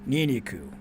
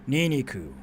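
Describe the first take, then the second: The two takes are said the same way.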